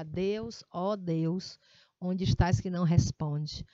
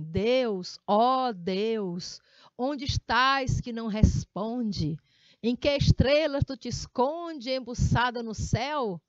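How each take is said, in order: First: Said in the usual way. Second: Altissonância; emphatic recitation. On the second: Shown as a demonstration. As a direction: declaim the poem loud and slow with emotion. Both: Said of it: "você vai ter que ler assim".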